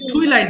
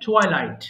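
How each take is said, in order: First: The first syllable has an 'ee' vowel. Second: The first syllable has an 'eye' vowel. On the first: The speaker calls it wrong. "টুইলাইট বলো অনেকে" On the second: The speaker calls it right. "টুয়াই হবে"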